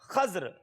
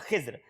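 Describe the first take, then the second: First: It has a after kh and no later vowel. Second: It has i after kh and no later vowel. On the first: "दूसरे में खा पे जबर है मगर दौद और रा साकिन है" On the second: "तीसरा तरीका यह है कि खा के नीचे जेर है"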